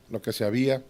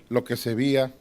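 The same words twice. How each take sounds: The two takes are said the same way.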